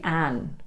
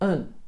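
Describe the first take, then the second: First: The word has a full 'a' vowel as in 'cat'. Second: The word has a reduced schwa vowel like 'un'. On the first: The speaker calls it wrong. "We don't say an in natural conversation" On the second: The speaker calls it right. "It's more like un with the schwa e sound"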